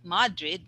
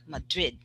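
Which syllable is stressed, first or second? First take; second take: first; second. First: The stress is on the first syllable. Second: The stress is on the second syllable. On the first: The speaker calls it wrong. "not Madrid" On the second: The speaker calls it right. "the stress is on the second"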